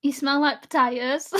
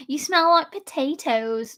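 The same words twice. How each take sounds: First: Said in the usual way. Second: Slow, carefully enunciated posh voice; posh accent. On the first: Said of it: "But she'd say it posh out". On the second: Acted. Mimicking her sister's insult, slow posh accent. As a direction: put on a posh accent, each word measured. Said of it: "she'd say it posh out".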